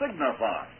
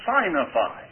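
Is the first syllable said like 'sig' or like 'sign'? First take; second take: sig; sign. First: The first syllable sounds like 'sig'. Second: The first syllable sounds like 'sign'. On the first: The speaker calls it right. "Proper pronunciation in English is signified" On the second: The speaker calls it wrong. "if you will just mispronounce that word signified, you'll get the meaning of it"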